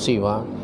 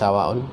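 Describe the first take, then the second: First: The final vowel is short, with no glottal stop. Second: The final vowel is lengthened, ending in a glottal stop. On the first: "kalau dibaca pendek itu dipendekkan" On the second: "Apabila dipanjangkan ya, dipanjangkan huruf lafadz siwa"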